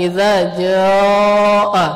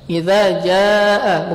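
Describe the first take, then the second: First: The long a vowel is heavy and thick. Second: The long a vowel is light and thin. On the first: The speaker calls it wrong. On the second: The speaker calls it right. "maka alifnya juga tipis"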